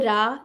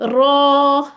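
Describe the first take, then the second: First: The vowel is a plain open a. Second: The vowel is a darker aw-like sound. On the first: The speaker calls it wrong. "इसको रा नहीं कहना" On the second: The speaker calls it right. "बल्कि क्या कहना है"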